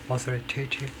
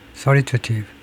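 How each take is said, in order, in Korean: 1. 뒤의 'ta' 음절에도 추가로 강세가 들어갑니다. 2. 강세는 두 번째 음절에만 들어갑니다. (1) "뭔가 좀 잘못됐네요 ... 제가 tative라고 했는데" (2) "두 번째 음절에만 액센트를 두고 발음해야 되네요"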